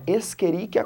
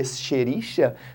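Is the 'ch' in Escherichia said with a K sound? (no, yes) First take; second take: yes; no. First: The ch is said with a K sound. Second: The ch is not said with a K sound. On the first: "C H no latim a gente fala com som de K" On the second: "a gente às vezes lê"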